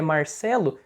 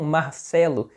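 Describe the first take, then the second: First: "Marcelo" with the R of Paraná; the speaker's home Paraná pronunciation; Paraná accent. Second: "Marcelo" with an aspirated Bahian R; Bahian accent. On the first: Shown as a demonstration. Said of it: "Que nem o meu nome". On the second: Retold or imitated. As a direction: imitate Bahian friends saying "Marcelo", R softened to h. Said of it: "amigos meus de lá da Bahia falam".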